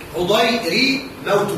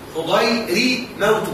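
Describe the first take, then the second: First: The r is followed by an i vowel. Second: The r is followed by an i vowel.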